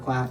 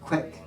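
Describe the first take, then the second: First: It is said with a broad southern-accent vowel. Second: It is said with a plain, standard vowel. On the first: "in the southern accent" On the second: "like quicksilver"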